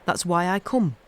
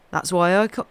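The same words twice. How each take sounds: First: Put-on Yorkshire boy's accent on the line, corrected. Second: Slipped out of the Yorkshire accent; a false start without the Yorkshire accent; wrong accent. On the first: Narrator redoing Dickon's line in his Yorkshire accent. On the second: Narrator's take of Dickon's line that drops the Yorkshire accent. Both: Shown as a demonstration. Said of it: "wrong la-, accent there".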